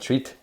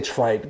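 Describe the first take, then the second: First: The vowel sounds like the 'ee' in 'feet'. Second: The vowel sounds like the 'eye' in 'kite'. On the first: The speaker calls it right. "It's supposed to be Vincent Van Treat" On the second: The speaker calls it wrong. "I want to say Trite, but you don't say Trite"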